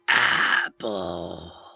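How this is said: It is said in a raspy ghoul voice.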